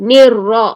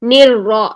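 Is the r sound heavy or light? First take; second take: heavy; heavy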